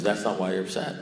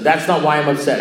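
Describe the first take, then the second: First: Low and soft, unmoved; calm contradiction. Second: Louder, higher-pitched disbelief; incredulous protest. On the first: Sponsor repeating himself to the baffled caller, calm and quiet. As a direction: repeat the verdict quietly, without any push. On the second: Caller challenging his sponsor's verdict, loudly incredulous. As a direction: throw the words back at him, indignant. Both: Retold or imitated.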